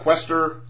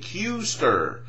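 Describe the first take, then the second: First: The name is said like Quester. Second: The name is said the intended way, Kuester. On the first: The speaker calls it wrong. "not Quester" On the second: The speaker calls it right. "Say it with me"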